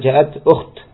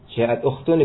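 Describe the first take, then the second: First: The last word stops on a bare "t". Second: The last word ends with a full "-un" ending. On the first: The reader stops at the end of the phrase. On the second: The phrase is read on without stopping.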